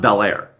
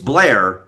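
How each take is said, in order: First: The name is said as two full syllables. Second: The name is squeezed into one syllable. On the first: The speaker is not from the area. The speaker calls it wrong. "not Bel Air" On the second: The speaker is a local. The speaker calls it right. "if you're south of the line, it's Blair"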